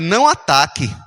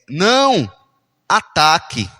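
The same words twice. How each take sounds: First: There is no pause after não. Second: There is a pause after não.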